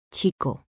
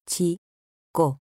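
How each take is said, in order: First: Said in the usual way. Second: "Chico" split as Chi, co, pause between; syllable by syllable. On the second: Shown as a demonstration. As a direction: say "Chico" in two separate pieces, Chi... co. ("Chico" separado en sílabas: chi, co) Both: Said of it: "Separación de sílabas".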